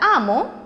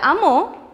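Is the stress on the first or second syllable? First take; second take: first; second. First: The stress is on the first syllable. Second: The stress is on the second syllable. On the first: It names an owner or master. "no lleva tilde porque es palabra grave terminada en vocal" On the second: It is the past tense of to love. "es aguda terminada en vocal"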